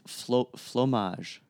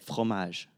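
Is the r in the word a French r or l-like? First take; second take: l-like; French r. First: The r is said like an l. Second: The r is said as a French r. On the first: "she would say, like" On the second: "we roll our R's"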